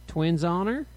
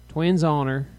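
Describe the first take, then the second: First: "Twins honor" climbing at the end; questioning rise. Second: "Twins honor" level and firm, no rise; affirming repeat. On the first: Twin upping the ante, "Twins honor" rising as a question. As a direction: ask "Twins honor" with a lift on honor. Asking for their private vow. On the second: Rita sealing the private vow, "Twins honor" said as a statement. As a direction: confirm "Twins honor" evenly, weight on Twins. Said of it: "Rita repeated". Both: A narrator's reading.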